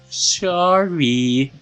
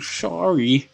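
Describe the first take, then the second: First: The word is said in a cute, sweet voice. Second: The word is mumbled as if the mouth is covered. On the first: The character is acting cute. The speaker calls it wrong. "I thought she was like trying to be all cutesy" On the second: The character's mouth is being held shut. The speaker calls it right. "She mumbles almost unintelligibly"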